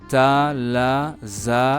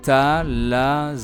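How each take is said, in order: First: It is said slowly. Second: It is said at normal speed.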